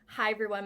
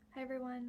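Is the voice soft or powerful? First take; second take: powerful; soft. First: It is said strongly, with much power. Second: It is said softly, with little power.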